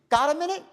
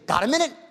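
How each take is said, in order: First: It sounds calm and reasonable. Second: It sounds pushy and pressuring.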